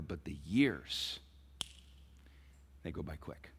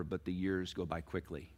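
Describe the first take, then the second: First: Slowed, lower and softer; slow emphatic. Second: Softer, lower; soft plain statement. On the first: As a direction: draw out the years, then drop away. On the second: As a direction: say it quietly. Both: Shown as a demonstration. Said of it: "parents, please listen".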